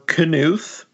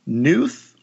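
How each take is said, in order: First: The name starts with a K sound. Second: The name starts with an N sound. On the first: "a K that is pronounced" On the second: "a silent K"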